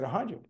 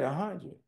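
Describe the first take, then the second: First: "A hundred." tried out softly with a rise, like a question; unsure rising "A hundred.". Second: "A hundred." softly falling, as a final answer; resigned falling "A hundred."; settled a hundred. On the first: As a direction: test the figure "A hundred." as a rising query. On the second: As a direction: accept the figure "A hundred." with a falling close. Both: Retold or imitated. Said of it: "I said".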